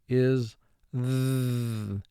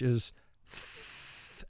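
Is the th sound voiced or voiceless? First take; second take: voiced; voiceless. First: The th sound is made with voice. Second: The th sound is made without voice. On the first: "which is also called the voiced sound, where your vocal cords vibrate" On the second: "That's called the voiceless sound"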